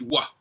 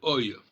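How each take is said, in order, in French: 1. Les lettres se prononcent wa. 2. Les lettres se prononcent oi. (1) "On prononce le, le O I wa" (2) "le O I devrait se prononcer oi"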